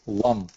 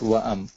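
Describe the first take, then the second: First: The vowel runs smoothly into the m. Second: A glottal stop separates the vowel from the m. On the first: The speaker calls it right. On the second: The speaker calls it wrong.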